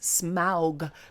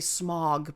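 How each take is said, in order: First: The name is said the careful, fuller way. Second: The name is said the simpler, easier way. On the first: It is faithful to the source. The speaker calls it right. "because this is the correct way to say it" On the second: It is made easier for the audience. The speaker calls it wrong. "because it's easier for people"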